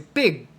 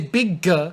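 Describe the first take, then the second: First: The final G stops without release. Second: The final G is audibly released. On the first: The speaker calls it right. "say big. You want the G to just stop" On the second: The speaker calls it wrong. "But don't say big"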